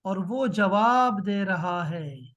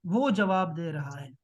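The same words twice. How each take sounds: First: Said in the usual way. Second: वो leaned on, rest dropped low; वो stressed in the repeat. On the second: Shown as a demonstration. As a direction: put the weight on वो, then let the line fall.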